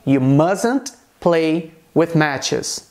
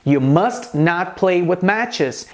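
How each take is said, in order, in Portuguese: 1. Must e not são unidos em uma única palavra contraída. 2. Must e not são ditos como duas palavras separadas. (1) "aplicando a contraction form" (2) "eu utilizei must separado de not"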